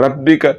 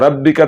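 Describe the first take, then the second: The two takes are said the same way.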